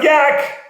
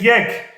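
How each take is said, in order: First: The vowel sounds like 'a' in yak. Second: The vowel sounds like 'e' in yes. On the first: The speaker calls it wrong. "Not yak" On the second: The speaker calls it right. "In Persian we say yek"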